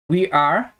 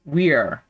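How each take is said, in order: First: "We are" as two separate words; full form. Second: "we're" run together, falling; contracted form. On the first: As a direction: keep "We are" uncontracted. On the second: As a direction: merge it into "we're". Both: Shown as a demonstration. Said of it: "podemos falar também é sobre as contrações".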